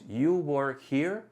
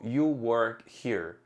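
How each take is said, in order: First: It is said as a question. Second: It is said as a statement.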